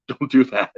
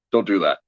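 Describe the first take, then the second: First: Higher, louder, laughing through the words; laughing plea. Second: Said in the usual way. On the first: Retold or imitated. Officiant laughing as he begs the tearful groom not to cry. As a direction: beg him through a laugh.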